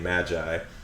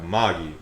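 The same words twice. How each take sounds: First: It uses the usual English pronunciation of the word. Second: It uses a Japanese-style pronunciation of the word.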